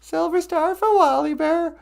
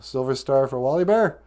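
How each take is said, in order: First: Squeaky high voice. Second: Said in the usual way. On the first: Pretend. Repeats line in squeaky voice.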